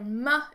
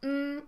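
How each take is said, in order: First: The consonant is followed by a short 'uh' vowel. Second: The consonant is held with no vowel after it. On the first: The speaker calls it wrong. "you say m" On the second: The speaker calls it right. "instead of saying mm"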